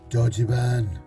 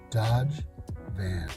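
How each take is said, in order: First: It is said with Japanese sounds and syllables. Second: It is said with plain English sounds.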